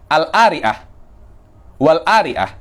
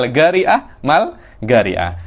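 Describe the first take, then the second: First: The q is dropped, Egyptian style. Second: The q is said as g, Hadrami style.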